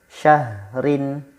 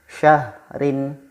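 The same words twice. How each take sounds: The two takes are said the same way.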